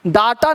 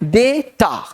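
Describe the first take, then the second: First: The first vowel sounds like 'ah'. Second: The first vowel sounds like 'ay'. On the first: The speaker calls it wrong. "डाटा नहीं" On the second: The speaker calls it right. "ये right sound है"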